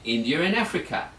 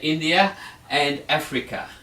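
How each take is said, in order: First: An R sound links India to and. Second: No R sound links India to and. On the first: The speaker calls it right. "We put a little R in there" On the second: The speaker calls it wrong. "you can't say"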